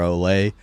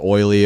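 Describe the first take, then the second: First: It sounds like olay, ending in ay. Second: It sounds like oily, with an oy vowel. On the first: This is the pronunciation the speaker expected. The speaker calls it wrong. "you chose oily over Olay" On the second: This is how the town is actually called. The speaker calls it right. "It's oily"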